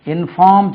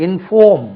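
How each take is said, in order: First: இன்ஃபார்ம் with an open FAAM; mispronunciation demo. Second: இன்ஃபார்ம் with a rounded, stressed FAWM; correct pronunciation. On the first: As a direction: show the faulty aa vowel in இன்ஃபார்ம். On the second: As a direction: punch a long aw in இன்ஃபார்ம். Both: Shown as a demonstration. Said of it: "இன்ஃபார்ம் சொல்லக்கூடாது".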